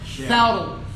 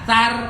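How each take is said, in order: First: The r is pronounced thick, with a heavy vowel. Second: The r is pronounced thin, with a light vowel. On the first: The speaker calls it right. "Padahal harusnya saur. Tebal ya" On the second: The speaker calls it wrong. "biarkan saya baca tipis nih ... Rajanya tipis ya"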